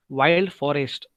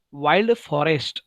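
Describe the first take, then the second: No difference in how they are said.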